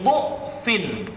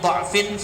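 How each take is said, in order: First: The first vowel is a u sound. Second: The first vowel is an a sound. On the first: "dengan harakat dhammah sehingga berbunyi dhu'fin"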